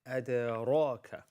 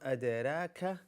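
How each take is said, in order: First: The R is said heavy, with a full mouth. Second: The R is said light, with an empty mouth. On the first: The speaker calls it right. "this is adraka. ... Ra is a full mouth letter" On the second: The speaker calls it wrong. "This is not"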